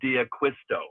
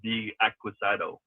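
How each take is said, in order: First: The name ends with a 'sto' sound. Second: The name ends with a 'sado' sound. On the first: The speaker calls it right. "it's ... John D'Acquisto" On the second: The speaker calls it wrong. "not D'Acquisado"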